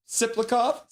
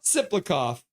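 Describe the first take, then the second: First: "Siplikov?" said as a tentative question, rising at the end; unsure guess. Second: "Siplikov." said firmly with a falling end; settled pronunciation. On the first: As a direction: try out "Siplikov?" with a doubtful rising tone. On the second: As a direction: land on "Siplikov." decisively, falling tone. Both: Shown as a demonstration. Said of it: "How do you say that name?".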